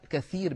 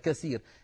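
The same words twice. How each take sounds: First: The middle consonant is a th sound. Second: The middle consonant is an s sound. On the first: It means many. The speaker calls it right. "أن يقول كثير بالثاء" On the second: It means broken. The speaker calls it wrong. "ويقولها بالسين هكذا"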